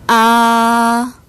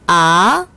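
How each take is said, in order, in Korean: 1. 음높이가 처음부터 끝까지 높고 평평하게 유지됩니다. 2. 음높이가 중간에서 높게 올라갑니다. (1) "제일성" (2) "제이성"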